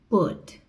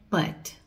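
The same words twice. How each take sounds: First: The vowel sounds like the one in book. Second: The vowel sounds like the one in cut. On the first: The speaker calls it right. "Preste atenção, put, o curto" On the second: The speaker calls it wrong. "A grande maioria acha que a pronúncia é put, por causa do verbo cut"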